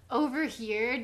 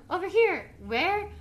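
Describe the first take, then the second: First: Said in the usual way. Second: Higher and louder, a stern mother calling; Mrs Kim calling out. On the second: Retold or imitated. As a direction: call it out across the shop. Acting out Mrs Kim's shout.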